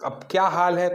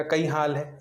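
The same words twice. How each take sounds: First: Said in the usual way. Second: कई हाल है in a light Malwi lilt; Malwi dialect. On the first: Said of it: "इसका हो जाएगा". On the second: Shown as a demonstration. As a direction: greet the Malwi way. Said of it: "तो इसका हो जाएगा".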